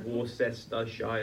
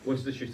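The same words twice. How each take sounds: First: The word is said with all its written syllables. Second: The word is said short, with syllables dropped. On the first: The speaker calls it wrong. "so not Worcestershire or whatever" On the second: The speaker calls it right. "that's how you say it"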